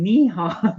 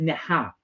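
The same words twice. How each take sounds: First: Neehaw as "nee-HAW", rhyming with yeehaw; higher, louder Neehaw with a long "nee"; cowboy-style mispronunciation. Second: Neha as "neh-HA", short first vowel; correct pronunciation. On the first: Host admitting her mistake, Neehaw whooped like yeehaw. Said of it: "I keep saying". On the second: Host correcting herself, Neha plainly as "neh-ha". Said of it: "So it's Neha". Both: Shown as a demonstration.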